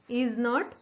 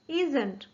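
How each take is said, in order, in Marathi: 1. दोन्ही शब्द पूर्ण, वेगवेगळे म्हटले जातात. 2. शब्द एकत्र होऊन एक कॉन्ट्रॅक्टेड शब्द बनतो. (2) "इज नॉटचं कॉन्ट्रॅक्शन काय होईल इजंट"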